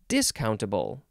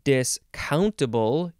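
First: The stress is on the first syllable. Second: The stress is on the second syllable. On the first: "you can emphasize the first syllable, which sounds like" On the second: "you can emphasize the second syllable"

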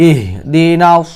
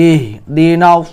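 No difference in how they are said.

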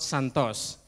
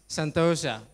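First: The name ends without a final 'a' sound. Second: The name ends with an 'a' sound. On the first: The speaker calls it wrong. "not Santos. Yeah, I'm not from Brazil" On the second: The speaker calls it right. "The third one is Santosa"

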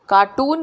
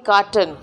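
First: The second syllable sounds like 'toon'. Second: The second syllable sounds like 'tun'. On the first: The speaker calls it wrong. "कार्टून नहीं कार्टन" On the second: The speaker calls it right. "कार्टून नहीं कार्टन"

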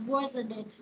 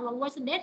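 First: The voice falls at the end. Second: The voice rises at the end.

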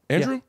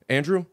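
First: The name is said as a question. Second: The name is said tentatively, half sure. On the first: The speaker asks whether the name is right. "Then you say it in a question" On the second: The speaker thinks they know the name. "the first time you say the name that you think you know"

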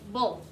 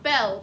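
First: The vowel sounds like the one in bull. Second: The vowel sounds like the one in bell. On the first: The speaker calls it right. "but bull" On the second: The speaker calls it wrong. "Not bell"

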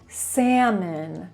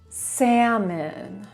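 No difference in how they are said.

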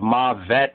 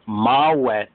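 First: The middle consonant is a V sound. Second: The middle consonant is a W sound. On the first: The speaker calls it wrong. "really the V is wrong" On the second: The speaker calls it right. "the older word is mawet"

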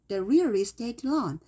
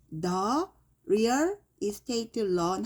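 First: The phrase flows as one unit without pauses. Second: The phrase is broken up with pauses between words. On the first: The speaker calls it right. "하나로 해봐요" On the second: The speaker calls it wrong. "이렇게 끊지 말고"

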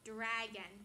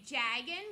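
First: The word begins with a d sound. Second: The word begins with a j sound. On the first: The speaker calls it right. "we want it to come from the front" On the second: The speaker calls it wrong. "they say jagon with a j sound"

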